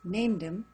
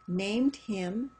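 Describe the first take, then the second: First: The h in 'him' is dropped and linked. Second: The h in 'him' is clearly pronounced.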